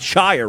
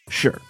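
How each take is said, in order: First: The word rhymes with fire, with a long i. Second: The word is reduced, sounding like sure. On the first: "I want to say shire" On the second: "So I'm going to start pronouncing it sure"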